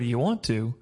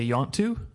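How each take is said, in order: First: Each word is said separately and in full. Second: The words are merged into two short syllables. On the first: "instead of saying" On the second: "in the Deep South, they actually do that. They combine words"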